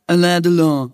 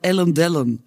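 First: The name is said with a French-style pronunciation. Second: The name is said with a Cologne dialect pronunciation. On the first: "Und das ist Alain Delon" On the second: "die auch einfach ohne Rücksicht auf Verluste alles Kölsch aussprechen"

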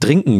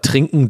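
First: The word begins with a d sound. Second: The word begins with a t sound. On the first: The speaker calls it wrong. "trinken gesagt" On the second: The speaker calls it right. "anstatt trinken"

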